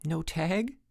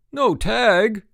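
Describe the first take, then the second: First: Small, higher, softer question; gulped. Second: Loud, high incredulous echo; outraged cry. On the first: Mike giving his ruling as referee, gulping. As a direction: shrink back and offer it timidly. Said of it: "gulped Mike". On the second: Frank disputing Mike's ruling, crying out. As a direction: fling it back in outrage. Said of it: "cried Frank". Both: A narrator's reading.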